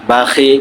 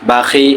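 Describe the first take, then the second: No difference in how they are said.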